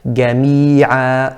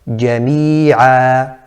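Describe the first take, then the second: First: It starts with a hard g sound. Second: It starts with a j with full tongue closure. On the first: The speaker calls it wrong. "like a ga, ga, jami'a, and that's incorrect" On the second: The speaker calls it right. "correctly pronounced"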